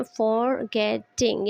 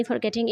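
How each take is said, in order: First: "फॉरगेटिंग" slowly in three separate beats, फॉर-गे-टिंग; split into syllables. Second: Said in the usual way. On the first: Shown as a demonstration. Teacher showing three syllables, split into syllables. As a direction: break "फॉरगेटिंग" into three spaced pieces. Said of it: "three syllable से मिलके बना है". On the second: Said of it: "फॉरगेटिंग एक word है".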